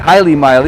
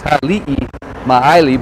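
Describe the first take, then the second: First: The first part sounds like 'Haile', two syllables. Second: The first part sounds like 'Ha-li-i', three syllables. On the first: The speaker calls it wrong. "A lot of people here say Haile Maili. It's technically not the right way to say it" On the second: The speaker calls it right. "It's Hali'i Maili"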